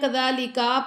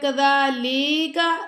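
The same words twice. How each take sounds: First: The final vowel after the k is drawn out. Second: The vowel after the l is drawn out. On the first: "आखिरी काफ को लंबा कर देते हैं" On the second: "लाम को लंबा कर देते हैं"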